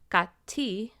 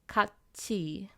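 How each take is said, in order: First: The middle consonant is a t sound. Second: The middle consonant is a ch sound. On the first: The speaker calls it wrong. "So it's not 같이" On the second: The speaker calls it right. "but 같이"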